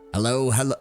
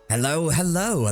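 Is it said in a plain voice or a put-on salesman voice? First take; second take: plain voice; salesman voice. First: It is said in a plain, ordinary voice. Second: It is said in a put-on salesman voice.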